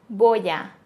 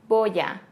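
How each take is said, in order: Both takes have the same delivery.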